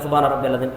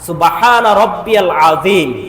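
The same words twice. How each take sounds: First: The phrase is rushed out very quickly. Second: The phrase is said slowly and carefully. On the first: The bowing is cut short and left incomplete. The speaker calls it wrong. "এভাবে তিনবার এক সেকেন্ডে শেষ" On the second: The bowing is complete and takes several seconds. The speaker calls it right. "এভাবে আস্তে আস্তে তিনবার যদি পাঠ করেন"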